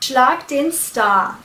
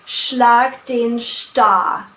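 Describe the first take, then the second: First: Star is said with an English pronunciation. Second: Star is said with a German pronunciation. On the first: The speaker calls it right. "They like to keep the pronunciation English" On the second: The speaker calls it wrong. "they've probably put a German twang on the word"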